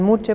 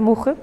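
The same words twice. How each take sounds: First: The name is pronounced the Spanish way. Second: The name is pronounced the German way. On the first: "cuando estoy en España lo suelo pronunciar más bien Muche porque me gusta más el sonido" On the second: "si lo pronuncio en mi idioma"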